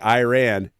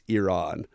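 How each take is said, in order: First: It is said with an American pronunciation. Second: It is said with a Persian pronunciation. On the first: The speaker calls it wrong. "us Americans, especially us Army vets, like to say Iran" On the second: The speaker calls it right. "It's Iran"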